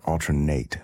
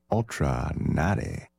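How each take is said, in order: First: "Nate" as one syllable, rhyming with late; silent-E pronunciation. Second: "Nate" as two syllables, NAH-tay; accented-E pronunciation. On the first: Radio host offering the other reading, "Nate" in one syllable. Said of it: "I'm not really sure how to pronounce". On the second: Radio host trying an artist's name, accented E sounded in "Nate". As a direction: say "Nate" slowly with the final E sounded. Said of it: "how to pronounce that accent on the E". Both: Shown as a demonstration.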